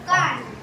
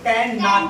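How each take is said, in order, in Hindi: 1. यह एक छोटे, संक्षिप्त शब्द की तरह बोला जाता है। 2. यह दो अलग-अलग पूरे शब्दों की तरह बोला जाता है। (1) "शॉर्टकट में हम लोग कांट पढ़ते हैं" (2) "इसको कैन नॉट पढ़ते हैं"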